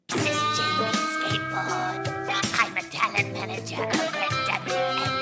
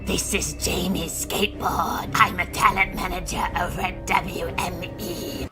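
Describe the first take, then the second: First: It is said in a seductive voice. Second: It is said in a silly robotic voice.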